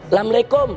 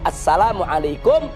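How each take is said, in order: First: The greeting is squeezed into two short syllables. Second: The greeting is said with all its syllables. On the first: It is the casual local everyday form. The speaker calls it wrong. "saking membudayanya jadi lamlekum" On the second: It is the proper standard form. The speaker calls it right. "Yang betul itu"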